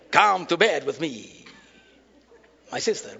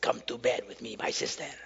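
First: It is said in a Russian, Dracula-like accent. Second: It is said in a plain, normal voice.

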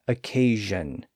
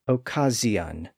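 First: The middle consonant is a buzzing zh sound. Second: The middle consonant is a buzzing z sound. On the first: This is the later modern pronunciation. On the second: This is an intermediate stage of the change.

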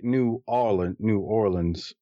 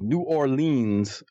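First: The name is said plainly without marked stress. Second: The name carries a marked, heavy stress. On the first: The speaker is from the city. The speaker calls it right. "I just say New Orleans" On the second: The speaker is not from the city. The speaker calls it wrong. "when you say it like with that stress"

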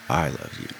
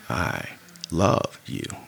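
First: The stress is on "I". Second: The stress is on "love".

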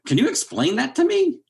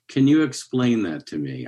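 First: It sounds obnoxious and mocking. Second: It sounds gentle and kind.

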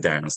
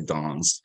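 First: The word is said in an ordinary local accent. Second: The word is said in a posh accent. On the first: This is how most suburban kids say it. "They don't say dance" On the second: This is how private school kids say it. "they say dance"

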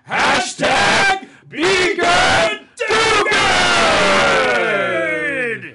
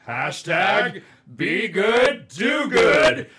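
First: It is said with wild, crazy energy. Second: It is said with a little more excitement.

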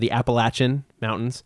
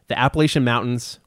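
First: It is said the local Southwest Virginia way. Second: It is said the general, non-local way.

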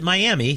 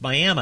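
First: The word ends with an ee sound. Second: The word ends with an uh sound. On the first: The speaker calls it wrong. "Never pronounce it Miami. That's the way it's spelled" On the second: The speaker calls it right.

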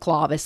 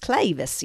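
First: It is said with a careful Latin pronunciation. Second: It is said with a Southern American accent. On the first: "that's actually Clavis if you're saying it properly" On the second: "but here in the South, it's Clavis, y'all"

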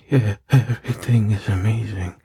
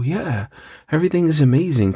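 First: The voice is breathy and strained. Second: The voice is plain and casual. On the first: The caller is aroused. "I could hear it in his voice" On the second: The caller is talking normally. "they go from talking like"

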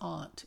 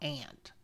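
First: The word does not sound like the insect. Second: The word sounds like the insect. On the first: The speaker calls it right. "it's aunt" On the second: The speaker calls it wrong. "It's not aunt. Ants crawl on the ground"

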